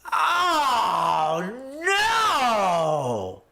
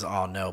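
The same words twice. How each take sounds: First: Long high "oh no" wail; hammed-up drawn-out cry of disappointment; mock disappointed wail. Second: Said in the usual way. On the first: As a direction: wail it out in exaggerated dismay. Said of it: "I was very, very disappointed".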